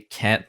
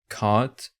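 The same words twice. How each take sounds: First: The word is said in an American accent. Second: The word is said in a British accent. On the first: "that's how I would say" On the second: "he has a British accent"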